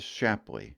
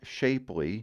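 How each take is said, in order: First: It is said with a short first vowel. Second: It sounds like the word shapely. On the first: The speaker calls it right. "that right there is Shapley" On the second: The speaker calls it wrong. "it is not Shapely"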